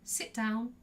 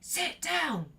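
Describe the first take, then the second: First: It is said in a polite tone. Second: It is said in an aggressive tone. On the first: A courteous request to be seated. "the first tone was polite" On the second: A rude demand to be seated. "I'd be quite rude"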